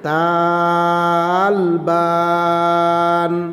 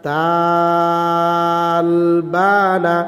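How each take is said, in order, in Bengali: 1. শব্দটি শেষ ব্যঞ্জনে থেমে যায়। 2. শব্দটি খোলা স্বরে শেষ হয়।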